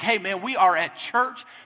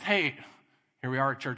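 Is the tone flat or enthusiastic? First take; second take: enthusiastic; flat. First: It is said with excited enthusiasm. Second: It is said flatly, without enthusiasm.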